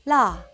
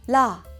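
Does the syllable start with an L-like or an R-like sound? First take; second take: L-like; L-like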